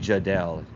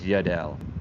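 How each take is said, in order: First: The name begins with a J sound. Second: The name begins with a Y sound. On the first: The speaker calls it wrong. "I keep saying Jadel" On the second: The speaker calls it right. "It's Yadel"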